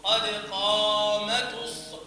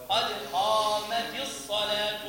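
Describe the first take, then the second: First: Slow قامت with the ta drawn out wrongly. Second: قامت with kasra on the ta, الصلاة with damma, slowly; correct قامت. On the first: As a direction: stretch قامت too long. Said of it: "وهذا أكثر الأشياء انتشارا". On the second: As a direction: say قامتِ الصلاةُ cleanly. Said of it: "يبقى التاء مكسورة". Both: Shown as a demonstration.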